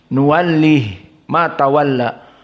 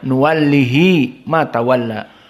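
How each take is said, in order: First: The h has no vowel after it. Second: The h is followed by an i vowel. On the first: "Hak disukunkan"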